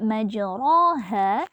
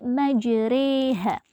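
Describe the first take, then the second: First: The vowel after r is an open a. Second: The vowel after r leans toward e. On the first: The speaker calls it wrong. "bacaan yang awalnya dibaca majroha" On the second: The speaker calls it right. "dicondongkan menjadi majreha"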